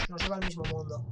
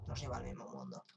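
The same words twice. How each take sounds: First: Said in the usual way. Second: Much lower, softer echo of the line; deep mock voice. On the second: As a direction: drop into a deep spooky echo. Repite con voz grave. (voz muy grave y burlona)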